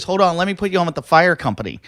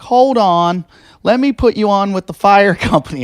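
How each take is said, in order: First: Higher operator voice, quicker; brisk operator. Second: Higher, louder operator voice; brisk operator. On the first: Dispatcher transferring the caller again, quick higher voice. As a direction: rattle it off like a dispatcher. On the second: Dispatcher transferring a panicked caller, brisk higher voice. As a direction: chirp it like a busy dispatcher. 911 operator puts him through. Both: Retold or imitated.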